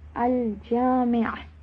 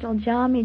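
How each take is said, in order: First: The word ends with a throaty ayn sound. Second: The word ends with a plain a vowel. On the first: The speaker calls it right. "It ends with a Ayn" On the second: The speaker calls it wrong. "not just Al-Jami', Jami', end with a A"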